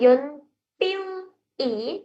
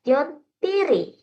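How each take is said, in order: First: The l sound stays apart from the final vowel. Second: The l sound carries over into the final vowel. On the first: The speaker calls it wrong. "bukan Yon Piu I" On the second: The speaker calls it right. "tapi Yon Piri"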